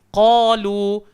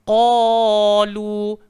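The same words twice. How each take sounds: First: The vowel is held for a normal length. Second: The vowel is stretched out much too long. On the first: The speaker calls it right. "dibaca cuma dua sahaja" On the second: The speaker calls it wrong. "tak usah kita lebih qalu, qila, tak jadi"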